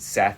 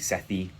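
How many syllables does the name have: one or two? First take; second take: one; two. First: The name is said with one syllable. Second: The name is said with two syllables. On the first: "I pronounce it Seth" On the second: "it might be Sethi"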